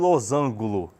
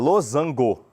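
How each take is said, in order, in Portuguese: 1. A palavra termina em -angulo. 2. A palavra termina em -ango. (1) "nada de losango" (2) "É losango"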